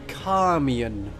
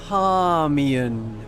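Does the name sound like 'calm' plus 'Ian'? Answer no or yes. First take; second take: yes; yes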